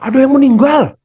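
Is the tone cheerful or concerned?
cheerful. It is said in a cheerful, energetic tone. The speaker calls it wrong. "orang kan nggak gitu ya"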